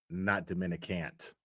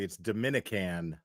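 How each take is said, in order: First: The word ends with an added t sound. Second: The word ends with an n sound. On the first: The speaker calls it wrong. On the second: The speaker calls it right. "actually, it's Dominican"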